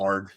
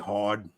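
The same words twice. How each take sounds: First: It is said in a neutral accent. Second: It is said in a Long Island accent. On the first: "Like instead of" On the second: "So if I'm at work, uh, I'll say hard"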